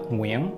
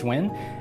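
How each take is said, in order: First: The name is said with Vietnamese pronunciation. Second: The name is said in an anglicized way. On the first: It is the name's original form. "The correct way to say it, the Vietnamese way to say it" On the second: It is the easy everyday version for most people. "That's usually how I say it"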